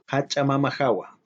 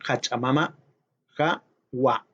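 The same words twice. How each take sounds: First: The words run together as one word. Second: The words are said separately with a break. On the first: The speaker calls it right. "todo junto" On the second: The speaker calls it wrong.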